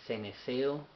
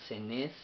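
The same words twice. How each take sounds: First: "ceneseo" said with four syllables, ending in -seo; variant pronunciation. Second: "cenés" cut to two syllables, stressed on -nés; variant pronunciation. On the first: Teacher showing viewers one Bible pronunciation, "ceneseo" with full -seo ending. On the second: Teacher showing viewers another Bible pronunciation, "cenés" stressed on the last syllable. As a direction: pronounce it "cenés", short form with final stress. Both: Shown as a demonstration. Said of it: "que lo pronuncian".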